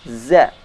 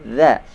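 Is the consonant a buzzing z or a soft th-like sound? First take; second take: buzzing z; th-like. First: The consonant is a buzzing z sound. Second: The consonant is a soft th-like sound. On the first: The speaker calls it wrong. "Maka itu tidak benar" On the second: The speaker calls it right. "Yang benar za"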